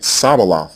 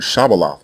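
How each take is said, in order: First: The word begins with an s sound. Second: The word begins with a sh sound. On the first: The speaker calls it wrong. "the Canaanite pronunciation ... saying it Sabaloth instead" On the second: The speaker calls it right. "word Shabaloth, which means stream"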